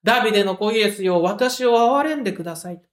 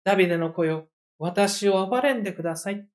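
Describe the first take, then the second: First: Crying out louder. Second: Quiet humble plea. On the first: Retold or imitated. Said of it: "ますます大きな声で叫び続ける". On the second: Shown as a demonstration. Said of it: "こういう含みを持つ言葉".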